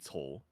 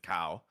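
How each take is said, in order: First: The name is said with a Mandarin pronunciation. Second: The name is said like the English word cow. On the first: The speaker calls it right. "but Mandarin would be" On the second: The speaker calls it wrong.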